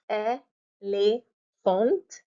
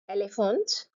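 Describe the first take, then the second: First: "elephant" drawn out as ay ... lay ... FONT; syllable by syllable. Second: Said in the usual way. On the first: Shown as a demonstration. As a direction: pause between all three syllables of "elephant", rising at the end. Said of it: "split your word into syllables". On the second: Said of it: "just pronouncing the word directly".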